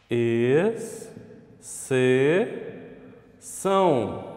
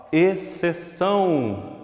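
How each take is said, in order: First: "Exceção" very slow, ex... ce... ção; syllable by syllable. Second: Said in the usual way. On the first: Shown as a demonstration. Teacher doing the syllable separation, syllable by syllable. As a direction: pause long after each part of "Exceção". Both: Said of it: "fazer a separação silábica".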